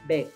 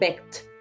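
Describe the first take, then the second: First: The ending is a soft D sound. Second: The ending is a hard, T-like sound. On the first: The speaker calls it right. "acá dices begged ... se escucha mucho más suavecito" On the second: The speaker calls it wrong. "Pero aquí no vas a decir begged"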